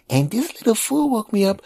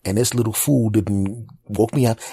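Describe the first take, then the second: First: Put-on very high child's echo; little kid voice. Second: Said in the usual way. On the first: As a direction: parrot it like a small boy. Nephew repeating.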